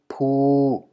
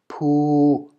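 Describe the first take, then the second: First: The syllable is said on a level middle tone. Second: The syllable is said on a level middle tone.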